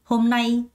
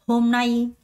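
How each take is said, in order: Both takes have the same delivery.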